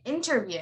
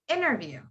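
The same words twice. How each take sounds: First: The T after the N is clearly pronounced. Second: The T after the N is dropped entirely. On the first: The speaker calls it wrong. "I don't say interview" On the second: The speaker calls it right. "I say interview"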